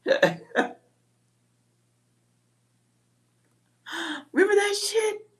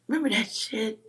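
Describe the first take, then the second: First: Squeaky rhetorical question. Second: Said in the usual way. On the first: Real, not acted. Rhetorical callback.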